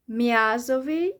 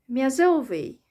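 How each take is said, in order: First: "Miazowy" stressed on the ya, "MYA-zowy". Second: "miazowy" with the stress moved off the ya onto the later syllable. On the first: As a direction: punch the "Mia" of "Miazowy". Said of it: "stress is either on the ya letter". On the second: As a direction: lean on the middle of "miazowy". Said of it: "or the E letter". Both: Shown as a demonstration.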